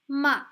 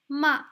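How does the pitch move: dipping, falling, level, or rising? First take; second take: falling; falling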